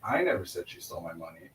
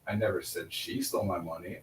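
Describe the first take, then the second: First: The stress is on the word I. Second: The stress is on the word she.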